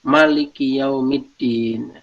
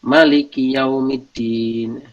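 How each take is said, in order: The two takes are said the same way.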